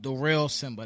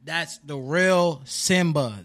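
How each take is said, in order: First: Said in the usual way. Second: "The Real Simba" drawn out slowly and louder; emphatic slow name. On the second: Shown as a demonstration. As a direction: land each word of "The Real Simba" slowly. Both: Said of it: "You can't mess it up".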